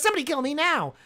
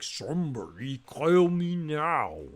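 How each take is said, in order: First: It is said fast. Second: It is said slowly.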